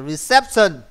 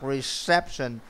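First: It is said with a heavy Vietnamese accent. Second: It is said without a heavy Vietnamese accent. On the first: The speaker calls it wrong. "nó bị nặng quá về giọng Việt Nam" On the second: The speaker calls it right. "Thầy thì đọc reception"

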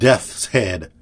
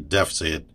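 First: The name is said in a standard pronunciation. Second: The name is said in a dialect pronunciation. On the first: "that's the last time I'm going to call him Death's Head"

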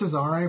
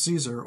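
First: The name is said in an Italian-style way. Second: The name is said like English 'Caesar'. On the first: The speaker calls it wrong. "I was saying it's Cesare for some reason, because I guess I thought Italian" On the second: The speaker calls it right. "of course it's just Caesar"

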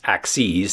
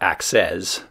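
First: The final syllable is a long 'eez' sound. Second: The final syllable is a short 'iz' sound. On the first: The plural of axis, as in axes of flight. The speaker calls it right. "That's axes" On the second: The plural of axe, a chopping tool. The speaker calls it wrong. "not axes. We're not going to chop anything up"

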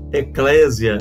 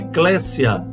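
First: The middle consonant sounds like a z. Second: The middle consonant sounds like an s. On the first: The speaker calls it wrong. "muita gente pronuncia errado a palavra eclésia. Eclésia, não existe essa pronúncia" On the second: The speaker calls it right. "É sempre SS, nunca tem som de Z"

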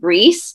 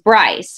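First: The name is pronounced the French way. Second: The name is pronounced the English way. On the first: This is the original form of the name. "And it's actually French" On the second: This is the adapted form used now. "they adapted the English pronunciation"

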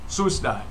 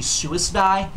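First: The greeting is said in a casual, clipped way. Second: The greeting is said in a careful, fuller way. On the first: This is an informal greeting. "this is an informal hello" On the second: This is the form some people insist is correct. "That's actually not the correct pronunciation of suicide. It's actually suicide"

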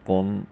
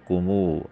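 First: The word ends on a bare consonant. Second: The word ends with a long 'oo' vowel. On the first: This is the regular form. "आखिर में जज्म" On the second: The sound is added for the poem's meter. "वाव की आवाज़ पैदा की जाती है"

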